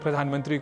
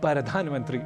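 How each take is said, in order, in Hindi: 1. पहला अक्षर एक कसा हुआ 'pra' संयोजन है। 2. पहला अक्षर 'para' में बँट जाता है।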